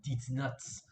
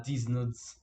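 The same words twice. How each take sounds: First: German accent, "Dietz" for "these". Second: Said in the usual way. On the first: Shown as a demonstration. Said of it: "but in a German accent". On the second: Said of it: "you're actually saying".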